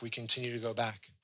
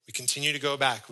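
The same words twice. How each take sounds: First: Repeated much softer, sinking; soft echo. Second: Said in the usual way. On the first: Real, not acted. Preacher echoes his point to the congregation, much softer. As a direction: let the repeat fall to a hush.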